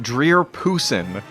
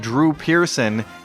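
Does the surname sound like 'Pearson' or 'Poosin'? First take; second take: Poosin; Pearson. First: The name is garbled, with its sounds swapped. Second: The name is pronounced in its usual form. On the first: This is a slip of the tongue. The speaker calls it wrong. "he said Dreer Poosin" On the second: This is the intended name. The speaker calls it right. "Instead of saying Drew Pearson"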